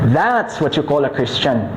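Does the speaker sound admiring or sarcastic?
admiring. The phrase sounds sincere and approving. The person stays faithful despite trials.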